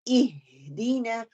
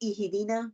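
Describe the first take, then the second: First: The word is said slowly with a clear stop. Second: The word is rushed without stopping. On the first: The speaker calls it right. "उसको क्लियर करना है, रुकना है, ठहरना है" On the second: The speaker calls it wrong. "ठहर के नहीं पढ़ती, जल्दी में पढ़ती हूँ"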